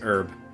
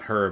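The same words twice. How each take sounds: First: The word begins with a vowel, H silent. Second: The word begins with an audible H sound. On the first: The speaker calls it right. "it's herb" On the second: The speaker calls it wrong. "the correct pronunciation of herb is not herb"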